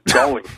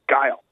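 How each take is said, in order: First: The name is said as two syllables, like gully. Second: The name is said as one syllable, like guile. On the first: The speaker calls it wrong. "Everyone used to call him Gully at the arcade" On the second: The speaker calls it right. "what his name actually was"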